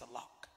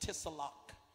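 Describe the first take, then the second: First: The word begins with an S sound. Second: The word begins with a T sound. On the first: The speaker calls it right. "The T is silent. It's salock" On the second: The speaker calls it wrong. "Some folk pronounce it wrong. They said tisalock"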